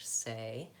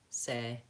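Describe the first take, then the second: First: The vowel is lengthened and glides into a second sound. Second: The vowel is short and stays on one sound. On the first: The speaker calls it right. "make sure that's a diphthong like the American English" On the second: The speaker calls it wrong. "you might say"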